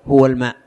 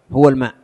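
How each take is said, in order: Both takes have the same delivery.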